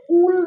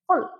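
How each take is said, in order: First: उल pushed hard with a drawn-out u; over-forced sound. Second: Said in the usual way. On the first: Shown as a demonstration. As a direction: overdo उल, forceful and stretched. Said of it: "बहुत ज्यादा जोर से उल नहीं करना है". (उल को ज़ोर देकर खींचते हुए) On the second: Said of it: "normal".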